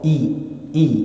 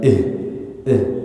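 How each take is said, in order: First: The vowel is a clear, close 'ee' sound. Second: The vowel is an open 'eh' sound. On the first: The speaker calls it right. "Hamzahnya harus jelas di kasroh" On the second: The speaker calls it wrong.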